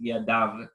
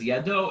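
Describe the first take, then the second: First: The word ends with an 'av' sound. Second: The word ends with an 'o' sound. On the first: This is how the word is read aloud by tradition. "it's pronounced yadav" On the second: This is how the word is written. "here it says yado"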